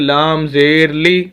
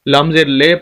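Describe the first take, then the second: First: The final vowel is a pure ee sound. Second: The final vowel is an ay sound. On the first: The speaker calls it right. "हालांकि लाम ज़ेर ली" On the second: The speaker calls it wrong. "लाम ज़ेर ले पढ़ते हैं"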